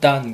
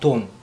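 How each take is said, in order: First: The vowel is an open 'ah' sound. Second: The vowel is a rounded 'o' sound. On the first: "영어 발음은 단" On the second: "알파벳상으로는 돈입니다"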